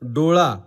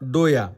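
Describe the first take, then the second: First: The middle consonant is a retroflex L sound. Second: The middle consonant is a Y sound. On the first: This is the standard form. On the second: This is the Ahirani dialect form.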